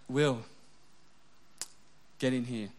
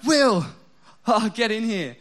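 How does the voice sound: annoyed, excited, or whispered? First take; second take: annoyed; excited. First: The voice sounds stern and annoyed. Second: The voice sounds bright and excited. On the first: He left something out he should have put away. "because I've left something on the ground that I was maybe meant to put away" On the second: She wants to show him something funny. "she's, like, watching a funny thing on YouTube she wants me to see"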